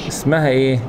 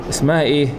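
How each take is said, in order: Both takes have the same delivery.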